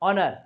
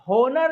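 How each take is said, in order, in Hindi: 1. शब्द सीधे स्वर की ध्वनि से शुरू होता है। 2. शब्द एच की साफ़ सुनाई देने वाली ध्वनि से शुरू होता है। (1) "एच को साइलेंट करके बोलना है" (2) "होनर नहीं बोलेंगे"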